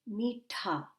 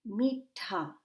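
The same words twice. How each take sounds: No difference in how they are said.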